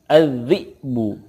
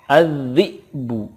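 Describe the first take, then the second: No difference in how they are said.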